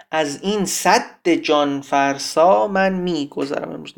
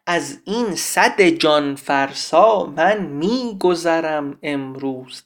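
First: "سد" with a long, doubled d, breaking the metre; doubled d demonstration. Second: "سد" with one short d, gliding into "جان" in slow metre; single d demonstration. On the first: Teacher shows the wrong reading, "سد" with doubled d. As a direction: hold the d of "سد" before "جان". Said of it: "من الان بخوام اینو با تشدید بخونم". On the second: Teacher shows the metrical reading, "سد" with single d. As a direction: keep the d of "سد" light and undoubled. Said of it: "نباید صد رو با تشدید تلفظ کنیم". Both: Shown as a demonstration.

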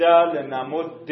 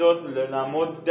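First: لنمد drawn out as "lenamudde"; final kasra. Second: لنمد drawn out as "lenamudda"; final fatha. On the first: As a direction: end a slow لنمد on short "e". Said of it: "بعد کسره بگید". (لنمد کشیده با کسرهٔ آخر) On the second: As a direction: end a slow لنمد on short "a". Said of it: "اول فتحه بگید". (لنمد کشیده با فتحهٔ آخر) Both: Shown as a demonstration.

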